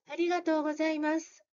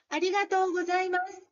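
First: The voice sounds slack and weak. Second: The voice sounds firm and resonant. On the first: The speaker calls it wrong. "力を入れないと" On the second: The speaker calls it right. "お腹にこのへこまないように力を入れて言ってみると"

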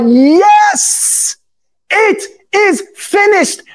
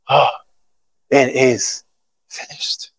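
First: It sounds like a joyful victory shout. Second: It sounds weak and defeated.

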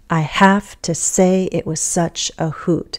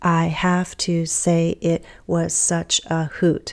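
First: Only content words are stressed, in natural rhythm. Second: Every syllable is stressed equally, in robotic rhythm. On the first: The line is being read as natural speech. "when I'm actually reading the poem, I'm going to stress my content words" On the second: The syllables are being counted. "you're hearing me speak almost robotically because I'm emphasizing each and every syllable"

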